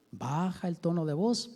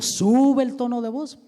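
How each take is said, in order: First: Much softer and lower, dropping right down. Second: Raised voice. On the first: Preacher showing teachers how to lower the voice: soft and low. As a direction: sink the voice to a hush. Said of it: "sube el tono de voz, baja el tono de voz". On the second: Preacher showing teachers how to raise the voice: louder. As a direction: push the voice up and out on this line. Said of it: "Cambia el tono de voz". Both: Shown as a demonstration.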